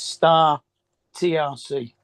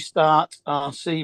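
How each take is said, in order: First: The T is said as its own letter. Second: The T is joined onto the first word. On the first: The speaker calls it right. "It's Star T R C" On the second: The speaker calls it wrong. "I'll say Start R C, but it's not"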